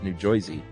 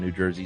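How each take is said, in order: First: It is said in an exaggerated local accent. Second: It is said in a plain, neutral way. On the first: "that is a New York accent" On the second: "no one from New Jersey says"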